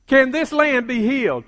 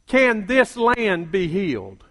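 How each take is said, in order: First: "Can this land be healed?" again at normal pitch and pace; repeated, lifted. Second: Slow, lower, weighty "Can this land be healed?"; slow low paraphrase. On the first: Preacher repeating the question, lifted and insistent. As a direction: lift it back up, insistent. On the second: Preacher paraphrasing God's question, slow and low. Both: Shown as a demonstration. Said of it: "let me paraphrase that another way".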